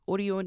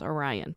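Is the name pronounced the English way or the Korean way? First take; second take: Korean; English. First: The name is pronounced the Korean way. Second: The name is pronounced the English way. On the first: "Orion is how it's pronounced in Korean" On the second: "or you might pronounce it as Orion"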